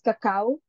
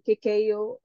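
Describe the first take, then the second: First: It is said with the local Filipino pronunciation. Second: It is said with the Western pronunciation. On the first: "in our local dialect, we actually pronounce it as cacao" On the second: "rather than kikeo in a Western region"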